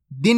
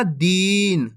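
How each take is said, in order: First: दिन with a quick short i. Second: दीन with a long, held ee. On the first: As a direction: keep दिन brief, vowel not stretched. (दिन में छोटी इ, बिना खींचे) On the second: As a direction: stretch the vowel in दीन before the n. (दीन को खींचकर) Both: Shown as a demonstration. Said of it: "दिन नहीं पढ़ना".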